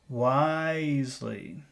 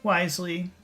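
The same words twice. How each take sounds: First: The word is said with strong focus emphasis. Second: The word is said plainly, without extra emphasis.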